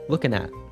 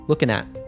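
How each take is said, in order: First: The final T is cut off in the throat. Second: The final T is cut off in the throat.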